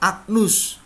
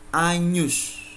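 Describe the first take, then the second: First: The gn is a hard g followed by n. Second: The gn is said as ny. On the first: The speaker calls it wrong. "itu menjadi salah" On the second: The speaker calls it right. "G N itu dibaca N Y"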